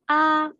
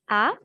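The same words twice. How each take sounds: First: The pitch stays level and high. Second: The pitch rises from mid to high. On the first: "Le premier ton est un ton plat" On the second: "Le ton qui monte"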